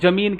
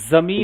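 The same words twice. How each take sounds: First: The word begins with a 'j' sound. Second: The word begins with a 'z' sound. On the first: The speaker calls it wrong. "ज्यादातर लोग जमीन कहते हैं" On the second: The speaker calls it right. "जबकि होता क्या है, जमीन होता है। ज के नीचे एक बिंदु, एक नुक्ता रहता है"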